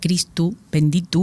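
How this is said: It is said Portuguese-style, with closed vowels. "ella decía; hablaba como una especie de portuñol... cerraba las palabras"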